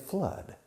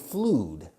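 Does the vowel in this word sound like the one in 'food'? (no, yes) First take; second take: no; yes. First: The vowel does not sound like in food. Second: The vowel sounds like the vowel in food. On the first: The speaker calls it right. "We say flood" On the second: The speaker calls it wrong. "Don't confuse it with food, ... But you insert an L, we don't say flood"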